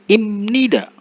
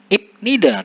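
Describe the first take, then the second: First: The first syllable ends with an m sound. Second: The first syllable ends with a b sound. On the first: The speaker calls it right. "tetapi imnida" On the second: The speaker calls it wrong. "Bukan ibnida"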